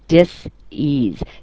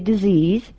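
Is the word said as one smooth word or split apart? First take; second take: split apart; one word. First: The word is split into two distinct parts. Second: The word is said smoothly as one unit. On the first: It means a lack of ease or comfort. "You very distinctly made it two syllables" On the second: It names an illness. "You didn't say disease"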